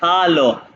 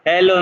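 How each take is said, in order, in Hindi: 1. पहला स्वर 'ah' जैसा है। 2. पहला स्वर 'eh' जैसा है। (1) "ये आ है इसलिए वो हालो है" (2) "हेलो नहीं"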